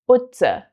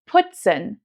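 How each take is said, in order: First: The p sound is softened toward b. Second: The p sound is hard and crisp. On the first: This is the Hessian dialect. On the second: This is standard German.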